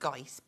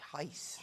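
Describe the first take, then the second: First: The name gets a loose, approximate pronunciation. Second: The name gets its full Dutch pronunciation. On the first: "You can kind of say it like" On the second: "but in Dutch, it's you have to Gijs like that"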